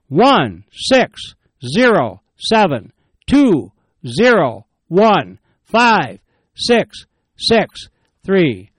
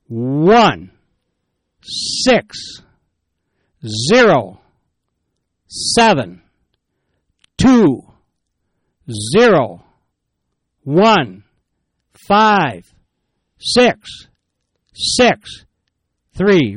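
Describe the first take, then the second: First: The number is read fast. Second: The number is read slowly.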